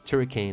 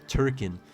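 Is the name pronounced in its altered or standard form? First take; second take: altered; standard. First: The name is said in an altered form. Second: The name is said in its standard form. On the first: The speaker calls it wrong. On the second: The speaker calls it right.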